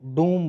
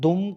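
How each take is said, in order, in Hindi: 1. स्वर लंबा है। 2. स्वर छोटा है। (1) "दुम को डूम बोलना" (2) "दुम को डूम बोलना"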